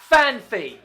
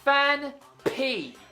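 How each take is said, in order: First: The second syllable starts with an f sound. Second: The second syllable starts with a p sound. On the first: The speaker calls it wrong. "If it was P H Y, then it would be Phanpy" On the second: The speaker calls it right. "It has P Y, not P H Y"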